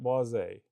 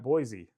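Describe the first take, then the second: First: The final E is sounded like 'ay'. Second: The final E is silent. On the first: The speaker calls it wrong. "everybody calls it Boise" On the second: The speaker calls it right. "technically, the pronunciation of this is Cedrat Boise"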